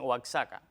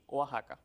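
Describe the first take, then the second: First: The x is sounded like ks. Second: The x is sounded like a harsh h. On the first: The speaker calls it wrong. "a veces dicen Oaxaca" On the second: The speaker calls it right. "Lo apropiado es México, Texas y Oaxaca"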